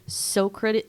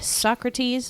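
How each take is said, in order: First: The name is sounded out as it is spelled. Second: The name has its usual pronunciation.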